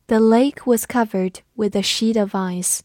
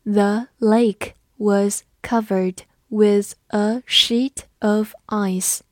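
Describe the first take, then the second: First: Said in the usual way. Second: Slow, careful model reading; teacher reading slowly for the class. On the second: Shown as a demonstration. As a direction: read it slowly word by word. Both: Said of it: "慢读一遍".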